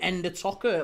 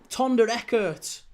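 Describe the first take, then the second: First: The name begins with an 'en' sound. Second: The name begins with a 'ton' sound. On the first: The speaker calls it wrong. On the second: The speaker calls it right.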